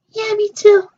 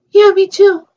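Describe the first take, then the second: First: Second doll, pitched way up; a squeaky other doll agreeing; even higher play voice. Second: Louder toy character voice, pitched up; a doll answering eagerly; higher play voice. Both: Pretend. Two toy characters answer in turn.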